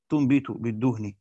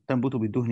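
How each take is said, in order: First: تنبت rounded to "tu": "tunbitu"; damma on the ta. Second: تنبت opened with "ta": "tanbutu"; fatha on the ta. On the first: Teacher explaining the damma reading, تنبت said "tunbitu". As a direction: say تنبت as "tunbitu" before بالدهن. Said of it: "ومن قرأ بضم التاء". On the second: Teacher explaining the fatha reading, تنبت said "tanbutu". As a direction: say تنبت as "tanbutu" before بالدهن. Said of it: "فمن قرأ بفتح التاء". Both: Shown as a demonstration.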